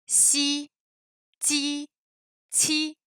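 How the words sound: The syllables are said the French way. The speaker calls it wrong. "ça c'est à la française"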